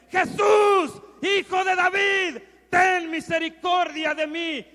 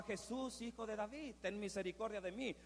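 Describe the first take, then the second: First: High, full-force cry for mercy; louder, desperate shout. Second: Said in the usual way. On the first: Acted. Blind Bartimeo calling Jesus over those silencing him, full shout. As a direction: shout over the crowd to be heard. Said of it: "empezó a gritar aún más fuerte". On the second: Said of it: "no solamente gritaba".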